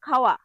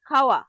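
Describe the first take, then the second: No difference in how they are said.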